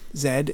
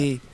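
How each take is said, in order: First: The letter is named the Canadian way. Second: The letter is named the American way.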